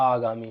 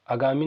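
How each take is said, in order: First: "आगामी" with a long opening aa; correct pronunciation. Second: "आगामी" with a short first vowel, as agami; wrong pronunciation. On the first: Teacher corrects the word for students, right long-vowel pronunciation. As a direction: draw out the first aa of "आगामी". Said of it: "आगामी होता है". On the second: Teacher tells students what it is not, wrong short-vowel pronunciation. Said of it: "आगामी नहीं होता". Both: Shown as a demonstration.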